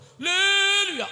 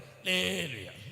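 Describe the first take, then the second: First: It is said loudly and forcefully. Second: It is said mildly and quietly.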